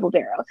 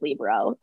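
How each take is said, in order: First: "libero" as luh-BEAR-o; second-syllable stress. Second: "libero" as LEE-buh-ro; first-syllable stress. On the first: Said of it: "instead of libero". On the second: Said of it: "why I went back to calling it". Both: Shown as a demonstration.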